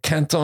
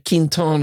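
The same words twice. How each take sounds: First: The name is said with a French pronunciation. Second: The name is said with a Northern American pronunciation. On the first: "Quinton is what the French say" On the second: "Quinton is what the Northerners say"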